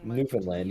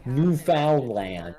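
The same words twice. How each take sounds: First: The word is said casually with a lax mouth. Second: The word is said with a wide open mouth. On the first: The speaker calls it wrong. "Instead of saying" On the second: The speaker calls it right. "you gotta open your whole whole mouth all the way"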